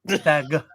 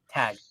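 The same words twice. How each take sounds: First: The final G is hard and clearly released. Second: The final G is soft and barely released. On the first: "some people really do tag, tag, like, a hard" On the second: "I don't enunciate the G so much"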